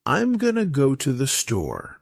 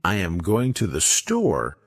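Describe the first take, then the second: First: "I'm gonna" run together as one smooth unit; casual linked "gonna"; connected speech. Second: Said in the usual way. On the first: Shown as a demonstration. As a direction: link the words, reducing "going to" to "gonna". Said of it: "how native speakers connect words". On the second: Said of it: "instead of saying".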